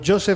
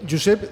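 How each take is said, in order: First: The name is pronounced the English way. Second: The name is pronounced the Spanish way. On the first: The speaker calls it right. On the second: The speaker calls it wrong.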